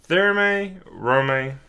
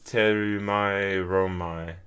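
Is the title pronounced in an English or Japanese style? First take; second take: English; Japanese. First: The title is said in an English-style way. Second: The title is said in a Japanese-style way. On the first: "I think that's how you say it" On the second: "The Japanese pronunciation is"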